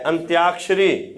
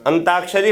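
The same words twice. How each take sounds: First: अंत्याक्षरी said slowly with a clear त्य cluster; correct pronunciation. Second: अंताक्षरी said with plain त, no य; the everyday slip: अंताक्षरी without the या sound; common wrong way. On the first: Teacher giving exam students the correct form: slow, careful अंत्याक्षरी. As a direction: spell it out slowly: अंत्याक्षरी, with the य sounded after त. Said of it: "अंत्याक्षरी होता है". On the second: Teacher showing students the wrong everyday form: अंताक्षरी with no य. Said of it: "अंताक्षरी हम लोग बोलते गलत हैं". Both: Shown as a demonstration.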